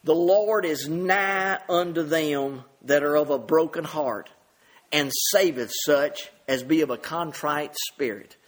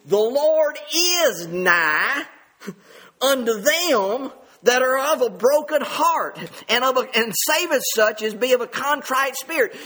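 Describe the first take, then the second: First: Said in the usual way. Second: "The Lord is nigh" drawn out very slowly, then each word pressed, louder and higher; slow emphatic reading. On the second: Shown as a demonstration. Preacher playing with the words, slow stretched emphasis. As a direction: lean hard on every word of "The Lord is nigh unto them". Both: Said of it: "I like to emphasize the act".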